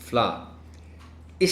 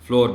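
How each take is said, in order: First: The word sounds like 'flower'. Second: The word sounds like 'floor'. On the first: The speaker calls it right. "This word if correctly pronounced is फ्लावर" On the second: The speaker calls it wrong. "इसको फ्लोर mill लिखा होता है, फ्लोर mills. ये गलत है।"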